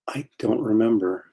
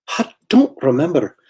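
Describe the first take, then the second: First: Said in the usual way. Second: Put-on higher-pitched Scottish engineer's accent; Scotty impersonation. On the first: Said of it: "and a Scotty impersonation". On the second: Artist quoting Scotty from Star Trek, Scottish impersonation. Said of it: "Scotty from Star Trek".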